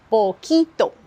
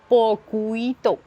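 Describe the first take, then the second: First: No 'u' sound is heard after the k. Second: A 'u' sound is heard after the k. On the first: The speaker calls it right. "Le U, on ne l'entend pas ... Je dis poquito" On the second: The speaker calls it wrong. "Je ne dis pas poquito"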